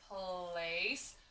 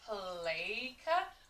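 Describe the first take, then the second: First: Long a vowel with a soft s sound. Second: Long a vowel with a hard k sound. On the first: The speaker calls it right. "C can also say S ... sounds like a word that I know" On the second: The speaker calls it wrong. "A can also say A ... doesn't quite sound right either"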